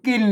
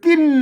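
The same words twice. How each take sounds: First: The word is said with a low tone. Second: The word is said with a falling tone. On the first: "เสียงเอก" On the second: "เสียงโท"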